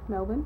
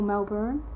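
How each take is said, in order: First: The R sound is left silent. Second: The R sound is clearly pronounced. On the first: This is how Australians say it. "we say them Brisbane and Melbourne" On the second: This is how Americans say it. "a lot of Americans say it Melbourne ... They pronounce the R"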